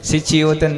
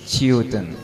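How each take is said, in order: First: It starts with a full 'si' syllable. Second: It starts with a faint, barely heard s. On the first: The speaker calls it wrong. "सिच्युतन नहीं" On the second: The speaker calls it right. "स का हल्का सा उच्चारण करना है"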